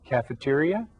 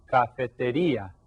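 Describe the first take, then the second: First: "Cafeteria" the English way, stressed on "te"; English cognate "Cafeteria", with English vowels and r; English pronunciation. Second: "cafetería" the Spanish way, stressed on "rí"; Spanish cognate "cafetería", falling after the stressed "rí"; Spanish pronunciation. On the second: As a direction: say "cafetería" with Spanish vowels and tapped r. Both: Shown as a demonstration. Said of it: "that's another cognate".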